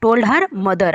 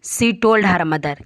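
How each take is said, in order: First: Said in the usual way. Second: Each word read slowly and clearly for the class; slow reading aloud. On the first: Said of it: "अपनी माँ को बोला।". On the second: Shown as a demonstration. Teacher reading a story sentence to pupils, slow and clear. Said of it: "किसको बोला?".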